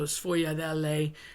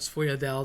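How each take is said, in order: First: The final vowel is pronounced. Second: The final vowel is dropped.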